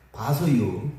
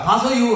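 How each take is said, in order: First: Low, noncommittal Chungcheong "봐서요"; Chungcheong-style reply. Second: "봐서요" higher and louder, drawn out; hammed-up Chungcheong dodge; Chungcheong-style reply. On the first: Retold or imitated. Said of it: "뭐라 그래요?". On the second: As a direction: say "봐서요" like a vague Chungcheong promise. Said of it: "자".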